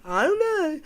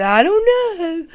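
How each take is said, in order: First: High, helpless I-don't-know; whiny shrug. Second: High, slow whiny shrug. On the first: Mocking the boyfriend's shrug again, high and whiny. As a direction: whine it with a shrug. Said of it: "That's what he did". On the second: Mocking the boyfriend's high, slow shrugging whine. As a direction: stretch it out like a pouting kid. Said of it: "like the little, um, emoji". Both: Retold or imitated.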